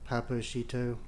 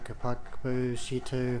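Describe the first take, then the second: First: The K sounds in the name are silent. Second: The K sounds in the name are pronounced. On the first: The speaker calls it right. "I think the K's are silent" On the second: The speaker calls it wrong. "I've been pronouncing it Kapako"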